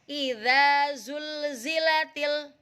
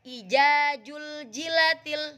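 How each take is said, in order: First: The consonant is a buzzing z sound. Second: The consonant is a j sound. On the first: The speaker calls it right. "Yang pertama nih" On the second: The speaker calls it wrong. "Yang kedua"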